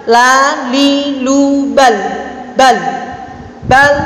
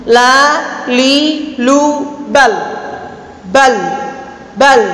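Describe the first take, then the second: No difference in how they are said.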